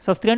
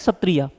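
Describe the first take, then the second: First: An extra s sound comes before the t. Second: No extra s sound comes before the t. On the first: The speaker calls it wrong. "सस्त्रिया नहीं" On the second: The speaker calls it right.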